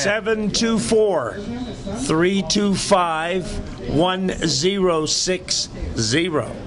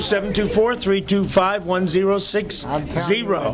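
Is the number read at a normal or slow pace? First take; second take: slow; normal. First: The number is read slowly, like an announcer. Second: The number is read at a normal pace.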